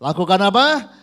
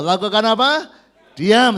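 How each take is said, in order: First: Said in the usual way. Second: Louder call. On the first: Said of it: "Kurang keras". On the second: Shown as a demonstration. Preacher urging congregation to answer, louder. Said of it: "Kurang keras, ayo".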